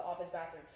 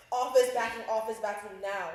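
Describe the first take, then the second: First: Said in the usual way. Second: Suddenly loud, insistent retold plea; raised-voice call for help; urgent demand. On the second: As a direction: repeat it forcefully, like an emergency text. Retold frantic text begging friends for help.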